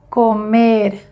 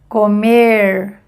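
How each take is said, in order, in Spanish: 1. La r final suena como una r española. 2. La r final suena como una r inglesa. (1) "semejante de español" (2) "Primer ejemplo en inglés"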